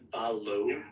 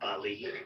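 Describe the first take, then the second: First: The word ends with an 'oh' vowel. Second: The word ends with an 'ee' vowel. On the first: The speaker calls it right. "pronounced like Ballo" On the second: The speaker calls it wrong. "not Bally"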